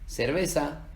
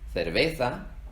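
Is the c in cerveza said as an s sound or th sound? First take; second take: s sound; th sound. First: The first consonant is an s sound. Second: The first consonant is a th sound. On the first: This is how the rest of the Spanish-speaking world says it. "En el resto de regiones del mundo, igual que la Z, se pronuncia como una S" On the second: This is how central, northern and eastern Spain say it. "En el centro, norte y este de España se pronuncia con un sonido interdental"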